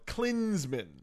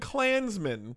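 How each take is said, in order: First: The first vowel sounds like 'i' in 'clinic'. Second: The first vowel sounds like 'a' in 'clan'. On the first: The speaker calls it right. "But no, Klinsmann. An I" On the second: The speaker calls it wrong. "not Jurgen Klansman"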